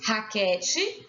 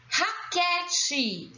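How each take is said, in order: First: Said in the usual way. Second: "Raquete" stretched out, pitched high; drawn-out syllables. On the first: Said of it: "Então, escrevemos". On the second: Shown as a demonstration. Teacher showing the stressed syllable, "Raquete" drawn out. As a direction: sound out "Raquete" slowly for learners. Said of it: "Qual é a sílaba tônica?".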